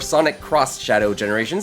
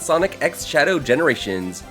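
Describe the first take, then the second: First: The middle word is said as 'cross'. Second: The middle word is said as the letter X. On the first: "or Sonic Cross Shadow Generations" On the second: "however you want to pronounce it"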